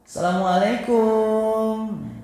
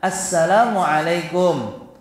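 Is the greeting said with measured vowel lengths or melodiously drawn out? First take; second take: melodious; measured. First: It is said in a melodious, drawn-out way. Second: It is said with carefully measured long and short vowels. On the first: The speaker calls it wrong. "Ini memang merdu, ... Tapi ini cara pengucapan yang salah" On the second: The speaker calls it right. "ucapkanlah dengan baik sesuai dengan kaidah panjang dan pendeknya"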